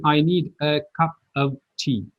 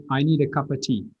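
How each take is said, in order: First: Every word separate, "cup of tea" with a full "of"; overcareful "cup of tea" with no linking; careful unlinked words. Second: "cup of tea" run together as "cuppa tea"; natural, flowing "cup of tea" with reduced "of"; linked connected speech. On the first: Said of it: "they don't say". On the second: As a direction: link "cup of" into one quick "cuppa". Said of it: "They always say". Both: Shown as a demonstration.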